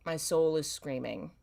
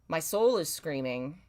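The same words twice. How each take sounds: The two takes are said the same way.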